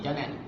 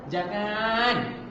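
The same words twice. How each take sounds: First: The final vowel is kept short. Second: The final vowel is drawn out long.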